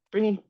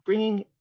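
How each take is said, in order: Both takes have the same delivery.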